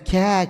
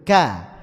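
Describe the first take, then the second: First: The k is released with much escaping breath. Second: The k is pressed firmly with little breath. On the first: The speaker calls it wrong. "Ini hamasnya lebih dominan" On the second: The speaker calls it right. "Maka kaf itu pengucapannya syiddahnya lebih dominan"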